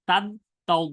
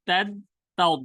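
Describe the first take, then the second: Both takes have the same delivery.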